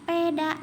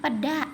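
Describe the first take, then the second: First: Peda with a clear é like in sate, shown as the mistake; peda said wrongly. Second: Peda with the weak e, pəda like ikan peda; peda said correctly. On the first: Teacher demonstrating the wrong peda to pupils, marked. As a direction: say peda as peeda, first e open and clear. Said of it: "bukan seperti itu". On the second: Teacher showing the right peda to pupils, clear. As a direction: swallow the first e of peda into a short uh. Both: Shown as a demonstration.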